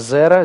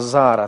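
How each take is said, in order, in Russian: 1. Гласный после z — короткий 'e'. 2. Гласный после z — более долгий 'a'. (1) "«зера» здесь поменялось" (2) "поменялось на «зара»... более длинный гласный"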